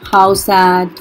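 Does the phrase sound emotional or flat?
flat. The phrase is said flatly, without emotion. The speaker calls it wrong. "ऐसे थोड़ी ना बोलोगे"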